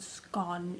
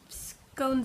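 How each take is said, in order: First: The word is said the British way. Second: The word is said the American way. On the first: "Scone is the British" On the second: "Scones is the American pronunciation"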